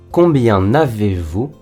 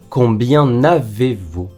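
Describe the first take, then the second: First: Combien is linked to avez with an n sound. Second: The same.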